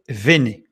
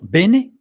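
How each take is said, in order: First: The word begins with a V sound. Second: The word begins with a B sound. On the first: The speaker calls it right. "mais il faut lire vene" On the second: The speaker calls it wrong. "il ne faut pas lire bene"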